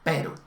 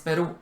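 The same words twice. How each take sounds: First: The stress is on the first syllable. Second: The stress is not on the first syllable. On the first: The speaker calls it wrong. "no Perú; en eslovaco el acento se pone siempre en la primera sílaba" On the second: The speaker calls it right. "Que Perú es Perú"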